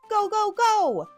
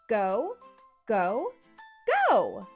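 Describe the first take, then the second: First: The words are repeated very quickly. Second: The words are repeated at a normal pace.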